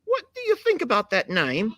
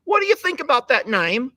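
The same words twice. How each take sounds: First: A hammed-up British voice, high; mock British question; British accent. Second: Hammed-up British voice, high and louder; a posher mock British reading of the question; British accent. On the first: Host voicing a British accent for the goat. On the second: Host repeats the question in a British accent. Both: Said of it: "Do I sound anything like British?".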